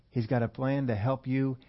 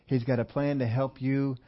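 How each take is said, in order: Both takes have the same delivery.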